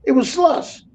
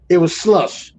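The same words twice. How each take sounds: First: Higher, rising incredulous "slush"; exasperated repeat. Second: Said in the usual way. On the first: Shown as a demonstration. Trucker mocking California chain laws, incredulous. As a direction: repeat it like you can't believe it. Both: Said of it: "repeats slush claim for emphasis".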